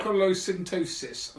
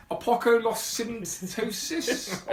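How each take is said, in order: First: Apocolosyntosis said fluently, with a falling end; settled pronunciation. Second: Apocolosyntosis sounded out very slowly, higher, questioning; tentative pronunciation. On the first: Host having worked out the title, Apocolosyntosis said fluently. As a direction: say Apocolosyntosis in one assured run, ending down. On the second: Host attempting a difficult title, Apocolosyntosis drawn out hesitantly. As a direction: feel your way through Apocolosyntosis, rising uncertainly. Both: Shown as a demonstration. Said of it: "look at how we, uh, how we pronounce it".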